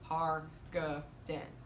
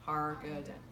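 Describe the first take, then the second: First: The name is said very slowly. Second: The name is said at normal speed.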